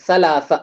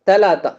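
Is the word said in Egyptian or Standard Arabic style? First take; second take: Standard; Egyptian. First: It uses soft th sounds, tongue under teeth. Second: It uses hard t sounds instead of th. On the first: "முதல் இடத்துலயும் சா வருது, நடுவுலயும் சா வருது" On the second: "இது எஜிப்சியன் எப்படி ப்ரொனவுன்ஸ் பண்ணுவாங்க?"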